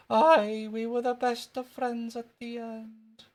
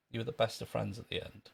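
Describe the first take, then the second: First: Put-on very high, drawn-out Scottish boy; squeaky Scottish schoolboy, stretching it out; Jimmy Krankie. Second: Said in the usual way. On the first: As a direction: insist in a slow Scottish squeak. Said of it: "That was wee Jimmy Cranky". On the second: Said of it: "But it wasn't me".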